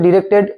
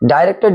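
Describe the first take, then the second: First: The first syllable sounds like 'dih'. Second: The first syllable sounds like 'die'. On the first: "দুটো উচ্চারণই কিন্তু correct" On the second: "দুটো উচ্চারণই কিন্তু correct"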